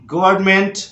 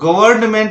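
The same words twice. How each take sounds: First: The n before the m is silent. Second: The n before the m is pronounced. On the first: The speaker calls it right. "यहां पे एन silent है ... तो इसको बोलना है आपको गवर्नमेंट" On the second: The speaker calls it wrong. "कई बार इसको गवर्नमेंट बोलते हैं जो कि गलत है"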